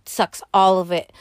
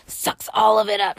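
First: Said in the usual way. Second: "sucks all of it up" shouted with a mock cry; dramatic wail. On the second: Shown as a demonstration. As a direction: wail it out like a drained victim.

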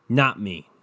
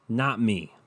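The two takes are said the same way.

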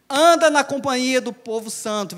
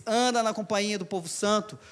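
First: Louder verse reading. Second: Said in the usual way. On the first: Shown as a demonstration. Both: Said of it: "Versículo vinte e cinco diz".

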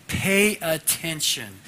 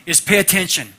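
First: Slow, weighty pay attention; slow deliberate repeat. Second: Loud, punchy call to attention; preacher hits the words hard; emphatic pay attention. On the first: Preacher repeating his theme to the class, slow and deliberate. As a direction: stretch it out, each word landing. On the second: Preacher opening sermon to class, loud emphatic call. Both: Acted.

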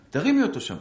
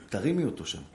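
First: תרימי higher and louder with a firm fall; stress on תרימי. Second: Said in the usual way. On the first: Shown as a demonstration. Rabbi urging the wife, stress on תרימי. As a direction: push the word תרימי, urging.

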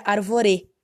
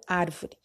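First: "arvorê" wrongly stressed on the final "rê"; stress on last syllable. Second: "árvore" stressed correctly on the opening "ár"; stress on first syllable. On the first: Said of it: "Ou se estivesse no último". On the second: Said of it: "não árvore". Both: Shown as a demonstration.

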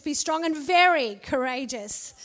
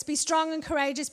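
First: Very leaned on and drawn down; stress on very. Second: Said in the usual way. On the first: Shown as a demonstration. Preacher repeats the charge to Joshua, stressing very. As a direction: land hard on the word very, falling. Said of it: "the third one".

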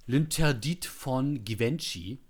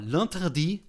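First: Said in the usual way. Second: L'Interdit said the French way, lan-ter-DEE, nasal first vowel, t silent at the end; French pronunciation. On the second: Shown as a demonstration. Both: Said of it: "Wa-, wa-, warte mal".

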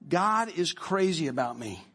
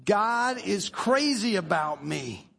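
First: Said in the usual way. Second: Chanted, slow, drawn-out group declaration; chanted, "God is crazy about me" said slowly in unison; chanted, slow unison affirmation; slow congregation chant. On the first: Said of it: "Now say this". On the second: Shown as a demonstration. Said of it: "One, two, three".

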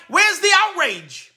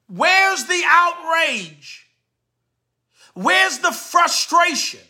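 First: Said in the usual way. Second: Where's the outrage? said very slowly, each word dragged; slow, drawn-out. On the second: Real, not acted. Slow, drawn-out rhetorical repeat.

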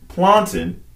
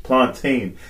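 First: High mock server saying "Plantain" as plan-tn; the server's crisp "Plantain"; "Plantain" said clipped, plan-tn; Jamaican plantain. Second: "Plantain" said plan-tayn, drawn out; the customer repeating "Plantain" slowly; "Plantain" with a long ay sound; customer's plantain. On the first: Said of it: "And she said". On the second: Retold or imitated. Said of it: "And he said".

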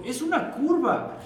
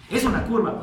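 First: "una" stressed, higher and slower; emphatic. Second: "es" stressed, higher and louder; emphatic. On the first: Demonstrator stressing that it is "una curva", emphatic. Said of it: "Y luego". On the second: Demonstrator insisting it really is a curve, stress on "es". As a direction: hit the word "es" in "Es una curva". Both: Retold or imitated.

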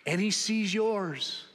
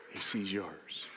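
First: Slow, deliberate, weight on "sees"; slow emphasis. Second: Much lower, much softer "He sees yours"; hushed echo. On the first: Preacher telling the congregation God sees them, slow and deliberate. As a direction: land "sees" slowly and firmly. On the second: Preacher quietly repeating to the congregation, hushed and intimate. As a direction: let it fall almost to a whisper. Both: Real, not acted.

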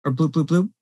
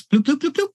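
First: Said in the usual way. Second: High popping bloop sounds. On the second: Acted. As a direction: pop out the copies, bloop bloop. GM sound effect for duplicates.

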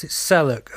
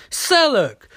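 First: Said in the usual way. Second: A sudden high shout of the name; loud high call for Sellook. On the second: Acted. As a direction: yell the name across the room. Canary calls out for Sellook.

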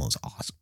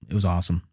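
First: Whispered; whispered awesome. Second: Said in the usual way. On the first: Shown as a demonstration. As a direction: breathe it like a secret.

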